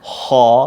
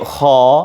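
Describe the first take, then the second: No difference in how they are said.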